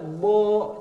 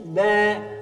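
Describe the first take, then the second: First: The B syllable is thick and heavy. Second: The B syllable is thin and light. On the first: The speaker calls it wrong. "Ba untung dibaca bo" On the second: The speaker calls it right. "tapi ba"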